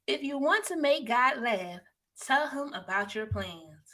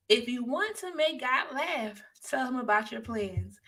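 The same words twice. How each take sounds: First: Slow quote reading. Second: Said in the usual way. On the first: Shown as a demonstration. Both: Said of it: "don't forget our quote of the day".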